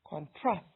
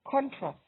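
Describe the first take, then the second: First: The stress is on the second syllable. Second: The stress is on the first syllable. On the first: It is used as a verb. "is a verb" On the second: It is used as a noun. "is a noun"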